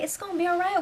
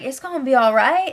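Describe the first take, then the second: First: Soft reassuring. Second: Said in the usual way. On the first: Retold or imitated. Justin comforting crying Shelby.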